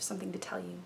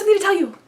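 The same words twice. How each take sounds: First: It is spoken slowly and hesitantly. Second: It is spoken quickly and excitedly. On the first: The news is tragic. "sadness and hesitancy, and I'm probably going to slow down that phrasing" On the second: The news is exciting. "There's this excitement, our words tend to flow a lot faster"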